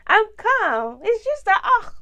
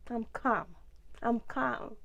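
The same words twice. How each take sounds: First: Raised, louder protest of being calm; exasperated insistence. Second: Said in the usual way. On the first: Real, not acted. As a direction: insist loudly as composure slips, pitch up. Calm claim breaks into exasperation.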